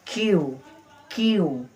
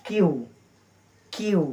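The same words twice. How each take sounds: The two takes are said the same way.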